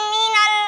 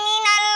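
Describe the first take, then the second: The two takes are said the same way.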